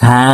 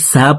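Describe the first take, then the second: First: It begins with a 'th' sound. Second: It begins with a plain 's' sound. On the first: The speaker calls it right. "এভাবে উচ্চারণটি করতে হবে" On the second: The speaker calls it wrong. "সিনের উচ্চারণ করে থাকি"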